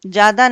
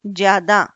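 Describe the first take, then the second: First: ज्यादा as "jaada"; wrong form without y. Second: ज्यादा as "jyaada"; correct form with y. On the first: Teacher shows wrong ज्यादा, said "jaada". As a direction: drop the y from ज्यादा. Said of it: "ज्यादा नहीं". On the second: Teacher corrects ज्यादा, said "jyaada". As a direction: clear y after j in ज्यादा. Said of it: "उसके साथ या आएगा". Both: Shown as a demonstration.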